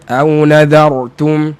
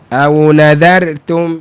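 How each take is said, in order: Both takes have the same delivery.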